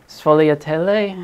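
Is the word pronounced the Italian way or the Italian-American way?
Italian. It is said with a standard Italian pronunciation. "I think is the not Italian-American way to pronounce it"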